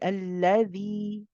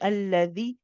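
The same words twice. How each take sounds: First: The long vowel is held for two counts. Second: The long vowel is cut short. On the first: The speaker calls it right. "you're saying ... Let it run for a bit. It's two counts" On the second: The speaker calls it wrong. "You're not saying"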